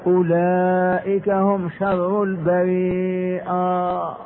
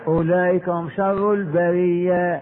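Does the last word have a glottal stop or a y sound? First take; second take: glottal stop; y sound. First: The last word has a glottal stop before the ending. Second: The last word has a y sound before the ending.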